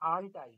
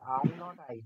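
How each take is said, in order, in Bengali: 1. Are আর not একটি শব্দে মিশে যায়। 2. Are আর not দুটো আলাদা শব্দ হিসেবে বলা হয়। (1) "এটা কন্ট্রাক্টেড ফর্ম হবে" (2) "আর আর নট আমরা বলবোও না"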